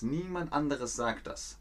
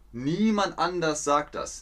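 First: Anderes with the extra syllable, said softer; correcting anders to anderes quietly; corrected form. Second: Said in the usual way. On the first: Shown as a demonstration. Teacher quietly correcting the word to anderes.

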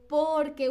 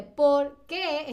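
First: "porque" as one word, strong "por"; unweighted final E. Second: Slow "por qué" in two weighted words; stress on qué. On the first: Teacher shows the one-word answer, light final "que". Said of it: "la E no tiene tanto peso". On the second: Teacher shows the question again, weighted "qué". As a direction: separate "por" and lean on "qué". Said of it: "tiene como este peso". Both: Shown as a demonstration.

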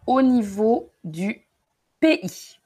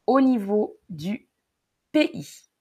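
The two takes are said the same way.

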